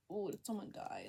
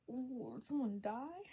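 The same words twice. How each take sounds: First: Said in the usual way. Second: Drawn-out "did someone die?" rising at the end; slow mock-dread question; dramatic worried question. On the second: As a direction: stretch out "Oh, did someone die?" slowly, lifting the pitch.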